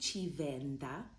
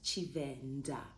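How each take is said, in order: First: The d is soft, tongue between the teeth. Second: The d is a plain, hard d. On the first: The speaker calls it right. "But it's actually Chivenda" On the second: The speaker calls it wrong. "not Chivenda"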